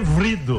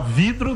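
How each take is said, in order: First: The first syllable is 'vri' with an r. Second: The first syllable is 'vi' with no r. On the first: The speaker calls it wrong. "que vrido" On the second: The speaker calls it right. "É mais fácil você falar vidro"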